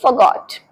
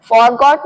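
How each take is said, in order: First: "forgot" said as fuh-GOT; correct past form. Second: First "forgot" said as FOR-got; wrong, full first syllable. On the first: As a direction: drop the r in "forgot". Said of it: "इसकी second form होती है". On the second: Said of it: "forgot नहीं forgot". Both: Shown as a demonstration.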